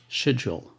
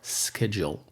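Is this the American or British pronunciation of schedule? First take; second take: British; American. First: It is said with a British pronunciation. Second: It is said with an American pronunciation. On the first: "which is the British pronunciation" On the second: "which is the American pronunciation"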